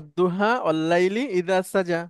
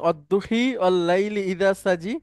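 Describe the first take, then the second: First: The final vowels are open 'a' sounds. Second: The final vowels lean toward 'i' sounds. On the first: This is how it is read in South Asia. "আমরা পড়ি না" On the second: This is another recognized reading, heard in Sudan. "আপনি কখনো শুনেছেন"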